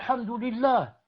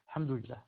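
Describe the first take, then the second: First: The word is said loudly, carrying far. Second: The word is said at a moderate, low volume. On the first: Someone far across the room would hear it. The speaker calls it wrong. "Non, pas comme ça" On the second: Only people nearby would hear it. The speaker calls it right. "c'est entre. Je me fais entendre à peine"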